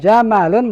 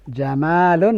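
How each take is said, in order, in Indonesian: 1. Vokal setelah m dibaca pendek. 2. Vokal setelah m dibaca panjang. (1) "dengan mim yang pendek" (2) "dengan mim yang panjang"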